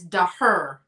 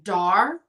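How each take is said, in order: First: The name is said in the German way. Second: The name is said in a non-German way. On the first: This is the pronunciation they learned. "in the German pronunciation is daher" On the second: This is how others commonly say it. "I've heard this pronounced dar"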